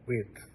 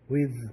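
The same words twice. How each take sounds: First: The final th sound is voiceless. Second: The final th sound is voiced. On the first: The speaker calls it wrong. "It's not with" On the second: The speaker calls it right. "It's voiced"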